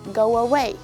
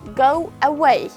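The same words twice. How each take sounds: First: A w sound links the two words. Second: The two words are said without an added sound. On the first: "when you connect them, we can see adding sound here" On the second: "If you pronounce it individually, you cannot add any kind of sounds"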